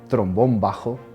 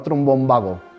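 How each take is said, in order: First: The second word has a breathy h sound. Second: The second word has a hard g sound. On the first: "el canal se llama Trombón Bajo" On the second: "como está escrito"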